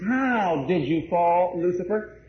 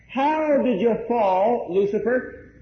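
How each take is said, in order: First: Slow, level exclamation with no rise at the end; a slow exclamatory How did you fall, Lucifer with the end kept level. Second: Slow question rising on How and again on Lucifer; a wondering How did you fall, Lucifer with a rising end. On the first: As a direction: declare it rather than ask. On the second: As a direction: ask it, lifting the end. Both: Shown as a demonstration. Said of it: "it sounds like a question and not an exclamation".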